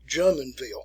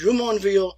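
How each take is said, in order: First: The name is said with English sounds. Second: The name is said with French sounds. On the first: The speaker calls it wrong. "they pronounce it" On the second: The speaker calls it right. "think of it like a French pronunciation"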